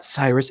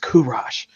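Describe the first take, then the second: First: The name is said the Americanized way. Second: The name is said the original Persian way. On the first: The speaker calls it wrong. "not the Americanized pronunciation" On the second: The speaker calls it right. "with the real pronunciation"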